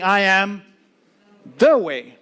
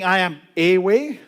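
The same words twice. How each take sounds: First: I am THE way, the word the hit hard and louder; preacher stressing I am THE way. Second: I am A way, with the small word a leaned on; the wrong reading, I am A way; stress on a. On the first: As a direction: punch the word the in I am the way. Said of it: "He's saying". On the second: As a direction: lean on the word a in I am a way. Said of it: "He's not saying". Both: Shown as a demonstration.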